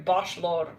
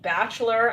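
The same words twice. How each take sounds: First: "bachelor" lightly Frenchified as "bosh-LOR"; French accent. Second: Said in the usual way. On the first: Shown as a demonstration. Reader repeats the word she's hearing, in a French accent. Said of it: "like, with a French accent". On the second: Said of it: "I'm hearing bachelor".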